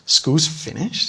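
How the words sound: It is said with a surprised, questioning intonation. The speaker did not expect it. "If I'm surprised, obviously the intonation changes"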